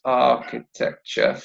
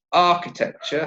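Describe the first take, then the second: First: "Architecture" slowly split into four syllables; "Architecture" measured out, rising at the end. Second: Said in the usual way. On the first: Shown as a demonstration. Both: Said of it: "how many syllables?".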